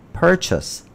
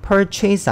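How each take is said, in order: First: Purchase said the right way, first syllable stressed; correct pronunciation. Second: Purchase said the wrong way students often use; wrong pronunciation. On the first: Teacher gives the correct purchase after the mistake, clear model. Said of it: "이게 구입하다고요". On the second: Teacher shows students' mistaken purchase, wrong way. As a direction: demo the common mistake on purchase. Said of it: "purchase 아닙니다". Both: Shown as a demonstration.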